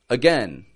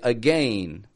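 First: The second syllable sounds like 'gen'. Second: The second syllable sounds like 'gain'. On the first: The speaker calls it right. "the average North American accent just says again" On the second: The speaker calls it wrong. "they'll say again, because that's how it's spelled"

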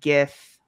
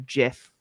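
First: The word begins with a hard G sound. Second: The word begins with a soft J sound. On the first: "with a G" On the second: "like the peanut butter"

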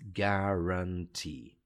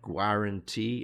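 First: The final E sound is long. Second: The final E sound is short. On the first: The speaker calls it right. "it's guarantee ... that long E sound" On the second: The speaker calls it wrong. "no, it's not guarantee"

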